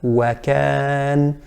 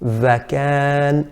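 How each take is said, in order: First: The word starts with a w sound. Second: The word starts with a v sound. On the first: The speaker calls it right. "the correct pronunciation is wa" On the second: The speaker calls it wrong. "pronounce it similar to a V"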